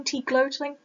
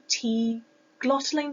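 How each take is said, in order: First: "glottling" with a long o, as in gloat; alternative pronunciation. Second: "glottling" with a short o, as in lot; trying a pronunciation. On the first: Student retrying a term only read, "glottling" with long o. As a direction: say "glottling" as GLOH-tling, trying it out. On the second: Student unsure of a term only read, trying "glottling" with short o. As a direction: say "glottling" to rhyme with bottling, unsure of it. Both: Real, not acted. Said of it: "the trouble when you only read things".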